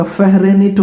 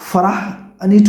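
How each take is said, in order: First: फ़हरेनीट sounded out slowly as feh-re-neet; slowly sounding out फ़हरेनीट; reading a misspelling. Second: फ़राहनीट sounded out slowly as fa-rah-neet; slowly sounding out फ़राहनीट; reading a misspelling. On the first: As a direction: read the wrong spelling फ़हरेनीट aloud. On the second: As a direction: read the wrong spelling फ़राहनीट letter by letter. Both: Shown as a demonstration. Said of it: "क्या होता है".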